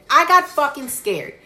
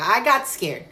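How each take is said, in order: First: "I got fucking scared" punched louder and higher; emphatic repeat. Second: Said in the usual way. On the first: Real, not acted. Storyteller admitting she got scared, "fucking scared" loudly stressed. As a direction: hit "fucking scared" hard, raised in pitch and volume.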